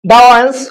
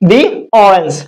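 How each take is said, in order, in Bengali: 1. 'the' শব্দটি 'thuh' হিসেবে বলা হয়। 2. 'the' শব্দটি 'thee' হিসেবে বলা হয়। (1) "দা অরেঞ্জ আমরা বলবো না" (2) "সো একে আমরা বলতে পারি দি অরেঞ্জ"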